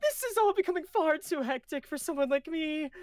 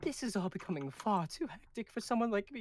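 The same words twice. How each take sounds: First: Put-on higher Galen voice, accent dropped; Galen without the accent. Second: Put-on Galen's lines with an unplanned accent. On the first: Rereading Galen's line to the crew, no accent. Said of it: "Why did I give him an accent?". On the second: Reading Galen's line to the crew, accented. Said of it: "is that out of an accent?".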